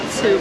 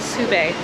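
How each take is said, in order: First: The word is said with one syllable. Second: The word is said with two syllables. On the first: The speaker calls it wrong. "I pronounced it wrong" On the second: The speaker calls it right. "It's called Sube"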